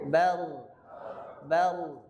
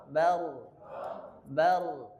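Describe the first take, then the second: Both takes have the same delivery.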